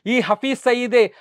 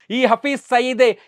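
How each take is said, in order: Both takes have the same delivery.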